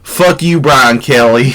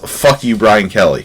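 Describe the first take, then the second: First: It is said in a put-on Southern accent. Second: It is said in the speaker's normal accent.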